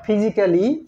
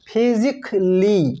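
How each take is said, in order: First: The a in the ending is pronounced. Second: The a in the ending is silent. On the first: The speaker calls it wrong. "Not" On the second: The speaker calls it right. "Silent থাকে"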